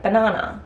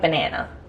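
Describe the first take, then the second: First: It is said in a non-American accent. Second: It is said in an American accent. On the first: The speaker calls it right. "like banana" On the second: The speaker calls it wrong. "not like American bananas"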